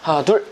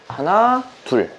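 First: The two counts come quickly and close together. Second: The two counts are slow with a steady pull. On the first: The speaker calls it wrong. "되게 급하게 치시는 분들은 이런 느낌인 거죠" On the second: The speaker calls it right. "그게 아니라 하나, 둘 줄다리기 하는 리듬으로"

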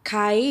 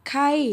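First: The syllable has a high tone. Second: The syllable has a falling tone. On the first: "เสียงตี" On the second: "เสียงโท"

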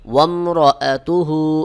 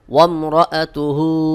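No difference in how they are said.

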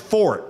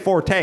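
First: It is said as one syllable, no final vowel. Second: It is said as two syllables, ending in a vowel. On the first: The speaker calls it right. "it's pronounced Fort" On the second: The speaker calls it wrong. "You don't say Forte"

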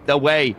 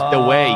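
First: The word 'the' starts with a th sound. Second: The word 'the' starts with a d sound. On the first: "Instead of saying the way" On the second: "Your T's become D's, it becomes the way"

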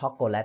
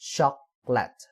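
First: The word is said with Thai pronunciation. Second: The word is said with English pronunciation. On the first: The speaker calls it wrong. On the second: The speaker calls it right.

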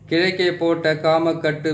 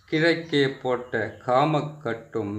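First: The phrase is said quickly. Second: The phrase is said slowly and carefully. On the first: "இந்த மந்திரத்தை கொஞ்சம் வேகமாக சொல்லிடுறேன்" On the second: "பொறுமையாக சொல்கிறேன்"

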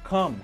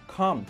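The two takes are said the same way.

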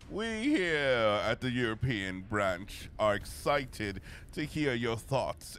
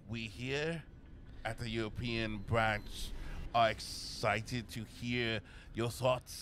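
First: It is read without a French accent. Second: It is read in a French accent. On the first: The speaker calls it wrong. "Oh wait, no, it's he's French then" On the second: The speaker calls it right. "That was my best attempt at, at a French accent"

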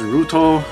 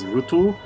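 First: The name is said with English-style vowels. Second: The name is said with Japanese-style vowels. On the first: "English pronunciation is Ruto" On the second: "apparently the Japanese pronounce as Ruto"

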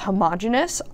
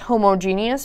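First: The 'homo' part is less clearly pronounced. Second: The 'homo' part is clearly emphasized. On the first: "also said as homogeneous" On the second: "I like to emphasize the part of the word that helps us know what it means"

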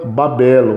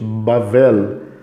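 First: The middle consonant is a B sound. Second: The middle consonant is a V sound. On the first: This is the transliterated form. "se transfigura como B" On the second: This is the original Hebrew form. "no original é, tem som de V"

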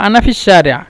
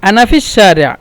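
The two takes are said the same way.

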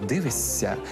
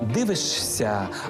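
First: A long s sound comes before the ending. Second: An sh sound comes before the ending. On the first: "а вимовляємо" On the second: "Пишемо"

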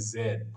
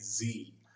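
First: It is said the Australian way, as 'zed'. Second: It is said the American way, as 'zee'.

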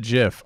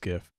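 First: The word begins with a j sound. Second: The word begins with a hard g. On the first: This is how the creator says it. "Even if he said GIF" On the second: The first letter stands for graphic. "I would say it was GIF because it's graphic"

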